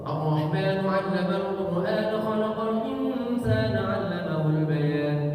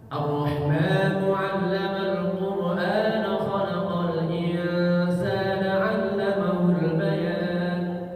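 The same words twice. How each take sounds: First: It is recited quickly. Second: It is recited at a moderate speed. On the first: "Boleh cepat" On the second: "Rada sedang"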